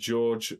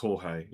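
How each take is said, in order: First: The name sounds like the English name George. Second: The name is said the Spanish way, Jorge. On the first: The speaker calls it wrong. "I assume it's pronounced George" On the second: The speaker calls it right. "Oh, it's Jorge"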